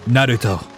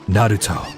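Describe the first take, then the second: First: The name is said with a Japanese-style pronunciation. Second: The name is said with a Japanese-style pronunciation.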